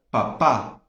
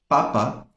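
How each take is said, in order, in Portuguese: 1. A sílaba tônica é a última. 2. A sílaba tônica é a primeira. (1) "papá tem acento na última sílaba" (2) "papa não tem acento"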